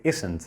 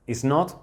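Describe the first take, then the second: First: "isn't" with the "not" reduced to n't; contracted form. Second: Said in the usual way. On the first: Shown as a demonstration. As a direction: run "isn't" together as a contraction. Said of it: "puedes decir "isn't". ("isn't" contraído, sin pronunciar la o de "not") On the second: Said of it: "En vez de decir "is not".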